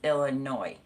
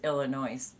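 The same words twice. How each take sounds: First: The final s is silent. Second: The final s is pronounced. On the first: The speaker calls it right. "No S on it, so it's just Illinois" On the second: The speaker calls it wrong. "I always thought it was Illinois"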